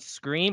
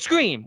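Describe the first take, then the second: First: The word is said plainly, without extra force. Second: The word is said with extra force and punch. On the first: It refers to the first film. "you didn't emphasize" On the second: It refers to the second film. "which is two? You have to really, you have to have that punch"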